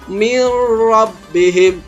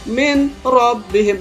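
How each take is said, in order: First: The n merges into a doubled r sound. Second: The n is pronounced separately before the r. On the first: The speaker calls it right. "nun mati jumpa dengan ro menjadi mirra" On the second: The speaker calls it wrong. "Kalau kita baca min rabbihim salah"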